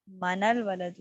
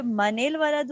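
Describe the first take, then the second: First: منل said "ma-NAL", a vowel after the n; noon without kasra. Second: منل said "ma-NIL", i/e vowel after the n; kasra on the noon. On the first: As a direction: say منل as "manal", noon with fatha. (منل میں نون پر زبر، "مَنَل") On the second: (منل میں نون پر زیر، "مَنِل") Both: Shown as a demonstration. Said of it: "نون کو ہم نے کسرہ دے دی".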